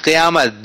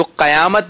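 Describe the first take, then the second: First: قیامت starting qi-, with a short i; correct pronunciation. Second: قیامت starting qa-, with an a after the q; wrong pronunciation. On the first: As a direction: model قیامت with zer under the qaf, qi-yaamat. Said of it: "قاف کے نیچے زیر ہے". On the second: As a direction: put zabar on the qaf of قیامت, qa-yaamat. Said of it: "قیامت نہیں کہیں گے". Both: Shown as a demonstration.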